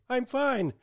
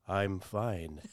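First: It is said too loud and high-pitched. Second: It is said quiet, low and drowsy.

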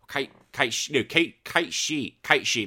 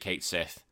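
First: The second word sounds like 'she'. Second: The second word ends in a 'th' sound. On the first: This follows the Japanese pronunciation of the name. "It should be more like the Japanese" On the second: This is the familiar English reading of the name. "I've always pronounced it Kate Sith"

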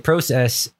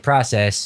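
First: The word is said with a Canadian pronunciation. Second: The word is said with a non-Canadian pronunciation. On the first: This is how Canadians say it. "They say process" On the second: This is how the speakers' own group says it. "And we say process"

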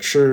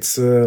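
First: It starts with a curled-tongue 'ch' sound. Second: It starts with a flat-tongue 'ts' sound. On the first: "instead of chur" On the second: "when I'm talking in Taiwanese, like instead of chur, I'll say tsu"

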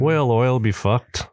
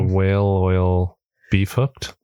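First: The words are said fast and run together. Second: The words are said slowly and separately.

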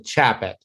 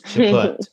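First: The name is said with an American pronunciation. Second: The name is said with a French pronunciation. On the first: The speaker calls it right. "they Americanized it to Chaput" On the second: The speaker calls it wrong. "not Chaput"

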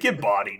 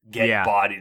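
First: It is said in a joking, teasing tone. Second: It is said in a boastful, self-important tone. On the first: Friends are teasing each other in fun. "sarcastic, like we would, you know, BS with each other about it" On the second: The speaker takes himself too seriously. "somebody saying it like, I'm awesome"

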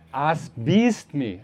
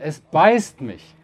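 First: It is said in an Austrian dialect. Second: It is said in standard German.

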